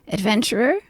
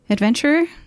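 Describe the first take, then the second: First: It is said in a rough, gravelly voice. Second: It is said in a plain, ungravelly voice.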